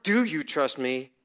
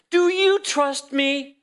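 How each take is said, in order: First: Said in the usual way. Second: High, slow and drawn out; lofty, unhurried question; God's gentle question. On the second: Retold or imitated. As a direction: ask it slowly, lifted up high like a voice from above. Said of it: "the Lord speaking to me".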